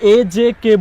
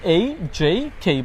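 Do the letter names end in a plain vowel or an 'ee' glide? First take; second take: plain vowel; ee glide. First: Each letter name ends in a plain 'e' vowel. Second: Each letter name ends with an 'ee' glide. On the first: The speaker calls it wrong. "এটা কিন্তু এ জে কে বলবেন না" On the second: The speaker calls it right. "বলবেন এই জেই খেই"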